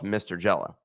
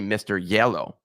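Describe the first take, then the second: First: It is said in a plain English accent. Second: It is said in a Spanish accent.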